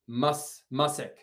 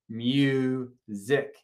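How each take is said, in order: First: The first vowel is a short U sound. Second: The first vowel is a long U sound. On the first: The speaker calls it wrong. "I'm working to get those mistakes" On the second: The speaker calls it right. "the first syllable of music is open, which means it's going to be long U"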